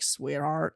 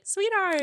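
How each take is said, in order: First: It is said in a creepy way. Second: It is said in a nice, friendly way.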